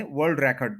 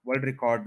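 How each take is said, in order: First: world record with record as REK-erd; noun stress. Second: world record with record as ri-KORD; wrong end stress. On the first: Teacher giving a noun example, REK-erd in record. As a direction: stress the first syllable of record. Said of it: "as a noun बोलना है तो फिर start में". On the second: Teacher showing the mistake, ri-KORD in record. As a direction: stress the last syllable of record. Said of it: "नहीं कहेंगे". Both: Shown as a demonstration.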